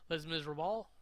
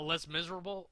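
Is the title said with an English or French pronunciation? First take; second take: French; English. First: The title is said with a French pronunciation. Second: The title is said with an English pronunciation. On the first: The speaker calls it right. "I think is how you say it um, in French" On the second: The speaker calls it wrong. "I said it wrong"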